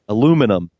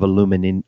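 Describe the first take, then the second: First: It is said with four syllables, American style. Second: It is said with five syllables, British style. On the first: "as we say" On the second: "as the Brits say"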